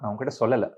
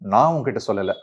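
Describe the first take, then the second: First: The stress falls on the last word. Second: The stress falls on the first word. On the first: I did not tell you, but I showed you. "நான் உங்ககிட்ட சொல்லலை ஆனா காட்டிட்டேன்" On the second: Someone else told you, not me. "வேற யாரோ சொல்லியிருக்காங்கன்னு சொல்லலாம்"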